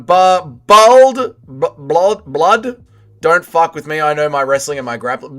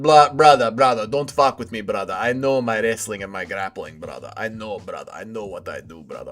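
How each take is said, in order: First: Attempted British impression, lightly put on; MMA Guru. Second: Low, muttered tough-guy impression; MMA Guru. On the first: Streamer attempts requested impression of a trash-talker, lightly put-on British voice. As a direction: try out a tough-talking British accent, a bit hesitant. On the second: Streamer imitates a wrestler bragging about grappling, low hushed mock menace. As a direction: drop low and quiet, sinking further with each phrase. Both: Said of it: "an M M A Guru impression".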